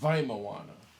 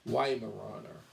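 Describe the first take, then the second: First: The word has a German pronunciation. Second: The word has an English pronunciation. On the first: "now I'm saying it in uh, German" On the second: "it's pronounced in, in English Weimaraner"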